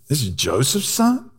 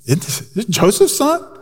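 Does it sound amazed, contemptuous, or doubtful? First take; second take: contemptuous; amazed. First: It sounds scornful and dismissive. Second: It sounds amazed and impressed.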